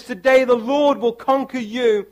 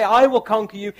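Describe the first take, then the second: First: "Lord" stressed and falling, other words light; weight "Lord", not the speaker. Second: "I" lifted and pressed before "will conquer you"; stress on I. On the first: Preacher correcting the emphasis, stress on "Lord". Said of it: "He says". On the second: Preacher showing the wrong emphasis, stress on "I". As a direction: lean on "I" as the one who conquers. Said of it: "You notice he doesn't say". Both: Shown as a demonstration.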